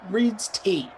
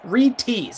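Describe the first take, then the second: First: The s sound follows the first part, Reed. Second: The s sound follows the final part, T. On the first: The speaker calls it wrong. "I say Reed Reed's T" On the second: The speaker calls it right. "It's Reed T's"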